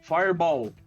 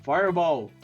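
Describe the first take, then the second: The two takes are said the same way.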